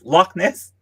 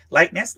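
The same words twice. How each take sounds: First: "Loch Ness" with short "lock" sound; Loch, the Scottish word. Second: "Lake Ness" with an English "Lake"; Lake for Loch. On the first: Traveller correcting herself on the lake's name, "Loch" like "lock". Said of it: "that's just their word for it". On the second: Traveller unsure of the Scottish lake's name, "Lake" for Loch. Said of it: "It is Lake Ness". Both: Shown as a demonstration.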